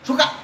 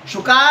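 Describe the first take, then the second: First: The final vowel is kept short. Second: The final vowel is drawn out extra long. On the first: "रस्व आहे" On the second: "तो प्लुत आहे"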